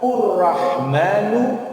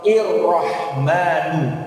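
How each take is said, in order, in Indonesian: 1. Kata ini diawali dengan vokal u. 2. Kata ini diawali dengan vokal i.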